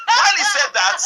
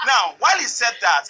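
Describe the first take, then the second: First: Words breaking into laughter; can't hold back the laugh. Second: Said in the usual way. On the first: Real, not acted. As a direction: laugh through the line, loud. Laughing while retelling the story.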